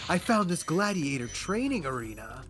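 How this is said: The voice is soft and smooth. "he has a much more softer sewed voice"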